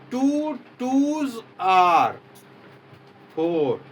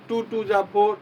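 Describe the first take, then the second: First: Each word is said fully with a clear 'are'. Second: The words run together with a short 'ja' sound. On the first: The speaker calls it right. "शुद्ध क्या है" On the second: The speaker calls it wrong. "नहीं, ये गलत है।"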